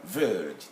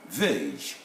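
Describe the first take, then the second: First: "verge" with the R pronounced, American style. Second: "verge" with a long vowel and no R sound; non-rhotic British verge. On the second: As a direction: say "verge" with the R left silent. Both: Shown as a demonstration. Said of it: "They will pronounce the R".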